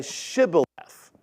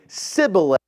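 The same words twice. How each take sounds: First: Said in the usual way. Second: Sibboleth with a plain S sound where sh belongs; Sibboleth, sh dropped to a simple S; Ephraimite mispronunciation. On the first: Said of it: "a hard time pronouncing the H in Shibboleth". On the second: Shown as a demonstration. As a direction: say Sibboleth, hissing S instead of sh. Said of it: "they would say Sibboleth instead".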